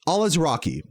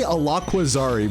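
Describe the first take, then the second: First: The middle has 'laz' followed by 'raki'. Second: The middle has a 'kwa' sound before 'zari'. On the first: The speaker calls it right. "is closer than what the fuck I was saying" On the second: The speaker calls it wrong. "I always say Alaquazari, but his last name is Alazraki"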